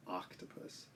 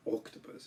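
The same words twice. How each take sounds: First: Octopus starting with an open 'ah'; English ah vowel. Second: Octopus starting with a rounded 'oh'; wrong long-o vowel. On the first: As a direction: say octopus as 'ahk-topus'. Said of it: "Start with the ah sound for the letter O". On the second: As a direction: say octopus as 'oak-topus'. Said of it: "It's not octopus". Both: Shown as a demonstration.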